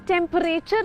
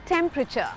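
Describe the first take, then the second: First: The stress is on the later 'rature' part. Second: The stress is on the first syllable 'temp'. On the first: The speaker calls it wrong. "इसको हम temperature नहीं बोलेंगे, रेचर पे emphasis नहीं होना चाहिए" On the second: The speaker calls it right. "Stress temp पे होगा"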